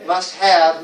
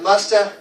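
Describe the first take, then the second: First: MUST HAVE as two full words; unreduced have. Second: MUST HAVE as "musta", one word; reduced must have. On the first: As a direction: sound the h and v of have. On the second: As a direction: drop have down to a bare "a". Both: Shown as a demonstration. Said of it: "we don't even go the".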